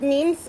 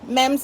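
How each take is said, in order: First: "memes" said with a long ee, like "meems"; long-vowel "memes". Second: "memes" said like "mems"; short-vowel "memes", as "mems". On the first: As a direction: say "memes" to rhyme with dreams. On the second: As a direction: say "memes" with a short e, to rhyme with gems. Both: Shown as a demonstration. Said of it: "however you say it".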